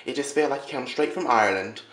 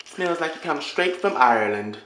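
First: Said in the usual way. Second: Slow, louder put-on Irish accent; mock Irish accent. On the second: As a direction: ham up a fake Irish brogue, slowly. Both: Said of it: "I'm sorry about the accent".

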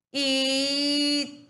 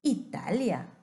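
First: ITALIA high, loud and slow, syllables held; drawn-out demonstration. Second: Said in the usual way. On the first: Shown as a demonstration. Teacher asking a child to listen, ITALIA loudly drawn out. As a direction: stretch ITALIA syllable by syllable, raised voice. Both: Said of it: "Escúchame, por favor".

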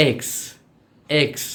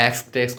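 First: "এক্স" alone, vowel held before the KS; careful, isolated "এক্স"; corrected letter X. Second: Said in the usual way. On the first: Shown as a demonstration. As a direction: lengthen "এক্স" and finish crisply on KS. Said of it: "এটা হবে কি". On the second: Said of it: "কত কিছু বলি".

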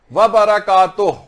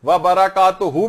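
First: Slow व बरकातुह ending on a light ह; slow louder recitation; correct recitation. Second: Slow व बरकातुहू ending on a long हू; slow recitation; correct recitation. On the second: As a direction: recite व बरकातुहू stretching the final हू. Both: Shown as a demonstration. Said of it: "भी सही है".

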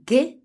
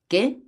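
First: Much higher, louder parroted question; exaggerated high-pitched echo; mocking imitation. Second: High, short questioning yelp, lightly acted; frightened question with a touch of alarm. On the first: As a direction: mimic the frightened question mockingly. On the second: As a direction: ask in startled disbelief, pitched up. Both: A narrator's reading. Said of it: "le imita Friel".

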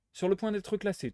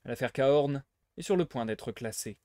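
First: "Sur le point d'être classée" repeated higher, pressing each word; insisting it is nearly closed; insistent repeat. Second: Said in the usual way. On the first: Acted. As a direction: hammer the point home. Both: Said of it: "te dis-je".

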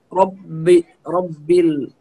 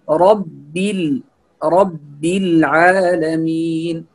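First: رب with a thick, dark ب; heavy ba mispronunciation. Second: رب العالمين slowly, heavy ر but light doubled ب; correct light ba. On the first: Teacher warns what not to say, heavy ب in رب. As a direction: make the b of رب heavy like the ر, as a mistake. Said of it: "فهنا يكون الباء كأنه". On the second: Teacher gives the correct reading, slow light ب in رب. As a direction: hold the b of رب thin and doubled. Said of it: "فالصحيح بأن نقول". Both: Shown as a demonstration.

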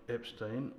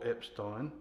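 First: Epstein with a long front vowel in "-stein", like "-steen" or "-stain". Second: Epstein with "-stein" rhyming with "wine"; Epstein as "EP-stine". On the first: Sergeant repeats both versions of the soldier's name, Epstein ending "-steen". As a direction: slowly say Epstein, not rhyming with "wine". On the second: Sergeant repeats both versions of the soldier's name, Epstein ending "-stine". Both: Acted. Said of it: "is it Epstein or Epstein".

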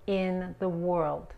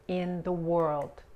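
No difference in how they are said.

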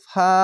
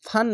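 First: ফা on an open long a, no n; correct stop ending. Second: ফান said with a closing n; wrong stop ending. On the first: Teacher shows learners how to stop, long open ending. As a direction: stretch the vowel of ফা and stop. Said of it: "এভাবে থেমে যাবেন". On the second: Teacher shows learners what not to say, wrong n ending. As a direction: close ফান on the n sound. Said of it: "ফান না বলে ফা". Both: Shown as a demonstration.

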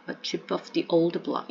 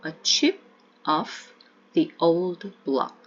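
First: Put-on "a chip of the old block" run together smoothly; connected speech, "chip of" blended; linked up. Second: Put-on slow, each word apart: "a chip of the old block"; "a chip of the old block" said slowly with gaps. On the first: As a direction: link "chip of the" into one flow. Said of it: "조금 연음하시면 a chip of the old block". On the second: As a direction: spell it out slowly, unlinked. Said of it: "조금 연음하시면". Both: Shown as a demonstration.

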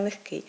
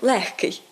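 First: Легкий stressed on the final -КИЙ; stress on ending. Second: Легкий drawn out on ЛЕГ-; mistaken first-syllable stress. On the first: Teacher gives the correct form, легкий stressed on the ending. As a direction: say легкий leaning on the last syllable. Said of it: "наголос ставимо на". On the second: Teacher quotes what people say, легкий stressed on first syllable. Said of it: "може, к-, кажуть". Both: Shown as a demonstration.

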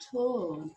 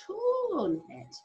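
First: Said in the usual way. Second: Torn said high and loud with the long or drawn out; stretched O sound. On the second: Shown as a demonstration. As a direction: show off the vowel in torn. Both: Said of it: "Can you hear it".

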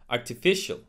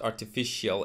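First: ARTIFICIAL ending in a single "shul"; correct artificial. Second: ARTIFICIAL ending in "shee-al"; mispronounced artificial. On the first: Teacher modelling artificial for learners, ending shul. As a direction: say "artificial" as "ar-tuh-FISH-ul". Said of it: "it's actually artificial". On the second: Teacher showing the mistake, artificial ending shee-al. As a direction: split the end of "artificial" into two syllables. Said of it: "it's not artificial". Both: Shown as a demonstration.

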